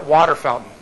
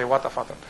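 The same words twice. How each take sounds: First: Said in the usual way. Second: "Wata Fountain" with an open "ah" and no r; "Wata" ending in "ah", not "er"; local pronunciation. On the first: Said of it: "But it's Wata". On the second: Shown as a demonstration. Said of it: "They would say Wata Fountain".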